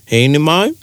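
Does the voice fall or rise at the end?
rise. The voice rises at the end.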